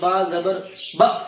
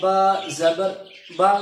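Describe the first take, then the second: First: The final syllable is cut off with a jerk. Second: The final syllable is said gently and smoothly. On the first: The speaker calls it wrong. "बगैर झटका दिए ... जैसे बाल लोग पढ़ते हैं" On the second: The speaker calls it right. "नरमी से उसको पढ़ना है, बिल्कुल नरमी से"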